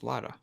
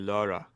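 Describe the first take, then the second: First: The name is said with an English pronunciation. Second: The name is said with an American pronunciation. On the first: The speaker calls it right. "Lara because she's English, so it's Lara" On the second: The speaker calls it wrong. "an American, you incorrectly would say Laura"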